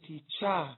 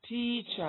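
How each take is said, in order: First: The stress is on the second syllable. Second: The stress is on the first syllable. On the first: The speaker calls it wrong. "I don't say teacher" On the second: The speaker calls it right.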